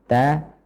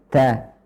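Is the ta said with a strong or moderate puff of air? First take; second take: moderate; strong. First: The t is released with a moderate puff of air. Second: The t is released with a strong puff of air. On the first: The speaker calls it right. "sedengan atau sedang saja" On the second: The speaker calls it wrong. "dengan hembusan udara terlalu banyak juga kurang tepat"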